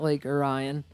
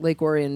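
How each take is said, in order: First: Orion is pronounced the way outsiders say it. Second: Orion is pronounced the way locals say it. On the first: This is how people from elsewhere assume it is said. The speaker calls it wrong. "like the rest of the world thinks it is" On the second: This is how the town's own people say the name. The speaker calls it right. "which uh, is how you say it"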